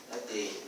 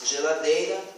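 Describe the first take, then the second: First: Ladeira with ge dropped, low and soft; child's version. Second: Said in the usual way. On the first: Shown as a demonstration. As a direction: say ladeira quietly. (ladeira, como a criança, sem ge) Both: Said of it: "em alguns casos pretônicos".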